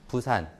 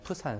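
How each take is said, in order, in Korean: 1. 첫 자음은 기식이 없는 평음 p예요. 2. 첫 자음은 기식이 강한 p예요. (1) "부산 이렇게 읽죠" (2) "푸산이라고 읽잖아요"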